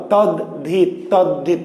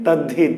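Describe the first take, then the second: First: "তদ্ধিত" in two parts, tad then hit; written form. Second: "তদ্ধিত" lower, merged as tad-dhit; spoken form. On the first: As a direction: keep the halves of "তদ্ধিত" apart. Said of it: "লেখা আছে দয়ে ধ". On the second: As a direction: run "তদ্ধিত" together with doubled d. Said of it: "কিন্তু আমরা উচ্চারণ করছি কি". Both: Shown as a demonstration.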